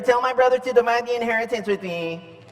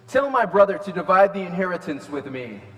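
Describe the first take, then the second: First: It is said in a demanding, childish tone. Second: It is read in a plain, neutral tone.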